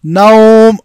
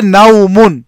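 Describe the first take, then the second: First: नौम cut short, ending dropped, a bit louder; pausal form. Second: नौमुन said in full with its ending; full form with nunation. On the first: Teacher shows how to stop on the word: नौम, clipped at the pause. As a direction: stop on नौम with a sukoon, firmly. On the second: Teacher shows the word before a pause: नौमुन in full. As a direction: say नौमुन with the -un ending, as when reading on. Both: Shown as a demonstration. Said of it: "अगर हम रुक जाएं, सुकून करें".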